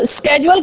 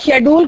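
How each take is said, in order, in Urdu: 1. یہ لفظ sk آواز سے شروع ہوتا ہے۔ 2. یہ لفظ sh آواز سے شروع ہوتا ہے۔ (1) "تو اسکیجول کون بولتا ہے؟ امریکن" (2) "اور شیڈول کون بولتا ہے؟ برطانیہ"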